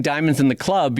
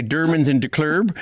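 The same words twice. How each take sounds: First: Said in the usual way. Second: "Dermans in der Club" in a mock Swedish chef accent, diamonds as Dermans; mock Swedish chef accent, a sloppy "der Club". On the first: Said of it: "instead of saying". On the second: Shown as a demonstration. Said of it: "instead of saying diamonds in the club".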